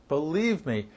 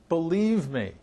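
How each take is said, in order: Both takes have the same delivery.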